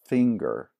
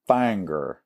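First: The word is carefully enunciated in a standard accent. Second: The word is said in a rural Southern accent. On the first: The speaker calls it right. "and it's finger" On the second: The speaker calls it wrong. "not fanger"

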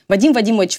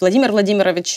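First: Several sounds of the name are dropped. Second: Every sound of the name is pronounced.

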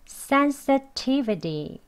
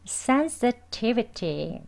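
First: The t in the middle sounds like a d. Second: The t in the middle is a crisp t. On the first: "이제 D로 발음하겠습니다" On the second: "sensitivity라고 발음합니다. 두번 해볼게요"

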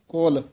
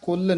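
First: The vowel is an o sound. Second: The vowel is a short u sound. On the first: The speaker calls it right. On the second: The speaker calls it wrong. "ਕੁਲ ਨਹੀਂ"

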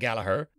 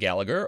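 First: The name is said with an Irish pronunciation. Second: The name is said with a non-Irish pronunciation.

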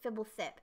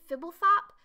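First: The last syllable has an 'i' vowel. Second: The last syllable has an 'o' vowel. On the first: "I've heard people pronounce it Fibblethip, and they're probably right" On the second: "I've pronounced it Fibblethop"

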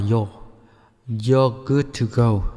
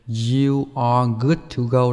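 First: The words 'you are' are contracted to 'you're'. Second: The words 'you are' are said in full. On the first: "đọc tắt là" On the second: "đó là cái câu đầy đủ ha"

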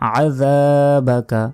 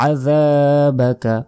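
No difference in how they are said.

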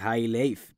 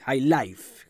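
First: It is read letter by letter as written. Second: It is said with English-style pronunciation. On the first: "se escribe así" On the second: "pero es High Life, como lo escuchó en alguna película"

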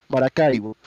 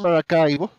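First: The name is said with Spanish pronunciation. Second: The name is said with English pronunciation. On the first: The speaker calls it right. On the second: The speaker calls it wrong.

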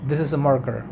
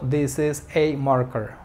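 First: The sentence is spoken quickly and smoothly. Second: The sentence is spoken slowly and deliberately. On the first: "Rápido" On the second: "cuando hablas pausado"

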